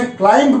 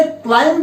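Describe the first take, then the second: First: क्लाइंब said klaimb, b sounded at the end; wrong pronunciation. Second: क्लाइंब said klaim, b silent; क्लाइंब ending on m, no b at all; correct pronunciation. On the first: Teacher corrects students who said क्लाइंब with a b. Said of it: "उनको बता दूं कि इसकी सही". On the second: Teacher praises students who said क्लाइंब as klaim. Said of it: "इसकी सही pronunciation जो है". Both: Shown as a demonstration.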